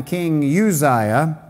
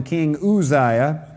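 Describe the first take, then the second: First: Uzziah said "you-ZYE-uh"; usual pronunciation. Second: Uzziah said "oo-ZYE-uh"; scholar's pronunciation. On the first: Preacher giving the congregation's familiar name, Uzziah pronounced "you-ZYE-uh". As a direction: start Uzziah with a "you" sound. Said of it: "Now, we call him King Uzziah". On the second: Preacher quoting his seminary professor, Uzziah pronounced "oo-ZYE-uh". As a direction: start Uzziah with "oo", no y sound. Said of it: "we'll go with the scholar's pronunciation". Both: Shown as a demonstration.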